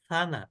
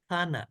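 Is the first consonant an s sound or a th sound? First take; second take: th sound; th sound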